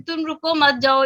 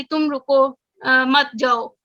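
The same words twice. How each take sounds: First: "तुम रुको मत जाओ" in one breath with मत stressed; run together, stress on मत. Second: "तुम रुको" then a clear break before "मत जाओ"; pause after रुको. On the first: Teacher showing the class "रुको मत" together, meaning don't stop, go. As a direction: run it straight through and lean on मत. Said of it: "इस तरह से हम बोल रहे हैं". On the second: Teacher showing the class a pause after "तुम रुको", meaning stop, don't go. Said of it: "Urdu में हमने कुछ एग्जांपल्स पढ़ी थी". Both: Shown as a demonstration.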